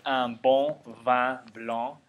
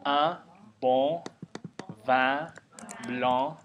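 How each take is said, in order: First: "un bon vin blanc" with nasal French vowels, said smoothly. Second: "un bon vin blanc" broken into separate nasal syllables; slow nasal syllables. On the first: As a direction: glide through "un bon vin blanc" nasally at normal speed. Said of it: "if you can say". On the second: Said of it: "if you can say un bon vin blanc". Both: Shown as a demonstration.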